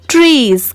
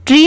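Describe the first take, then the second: First: Trees, ending sounded; trees with final S. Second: Tree with open ending; tree without S. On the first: Teacher correcting tree for learners, trees with final S. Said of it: "क्योंकि एस है". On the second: Teacher showing the incomplete reading, tree without S. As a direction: say tree, leaving off the final S. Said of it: "सिर्फ ट्री नहीं पढ़ेंगे". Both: Shown as a demonstration.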